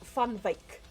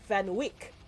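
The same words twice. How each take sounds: First: The surname gets its native Dutch-style pronunciation. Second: The surname gets a foreign, non-Dutch pronunciation. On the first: This is how the family says its name. The speaker calls it right. "our surname is Van Wyk, which is not that hard to say if you know how to say it" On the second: This is how outsiders abroad say the name. The speaker calls it wrong. "they say Van Wyk. And it drives me crazy"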